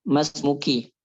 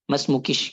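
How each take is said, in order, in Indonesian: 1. Kata itu berakhir dengan vokal biasa. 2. Kata itu berakhir dengan bunyi sh.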